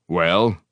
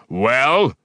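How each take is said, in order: First: Curt, hard question; hard, demanding. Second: Higher, much louder demand; repeated demand. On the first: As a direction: demand an answer flatly. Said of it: "his voice suddenly hard". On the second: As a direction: bark the question again. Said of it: "he repeated". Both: A narrator's reading.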